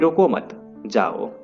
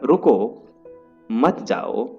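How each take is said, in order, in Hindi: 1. विराम 'mat' शब्द के बाद आता है। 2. विराम 'ruko' शब्द के बाद आता है। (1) "रुको मत जाओ मतलब हम जाने के लिए बोल रहे हैं" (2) "रुको मत जाओ इसमें हम रुकने के लिए बोल रहे हैं"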